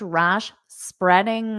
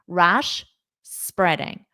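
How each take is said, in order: First: There is only a tiny pause between the words. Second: There is a clear pause between the words. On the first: "I want to get it as small as I can" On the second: "I'm going to fully pronounce rash and then I will say spreading"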